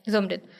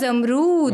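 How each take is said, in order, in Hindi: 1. यह सीधा बोला जाता है, छोटे 'rit' पर खत्म होता है। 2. यह 'za' से शुरू होता है और इसमें लंबा 'roo' है। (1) "वहाँ के लोग सिंपली ले लेते हैं" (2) "कराची के जो लोग हैं"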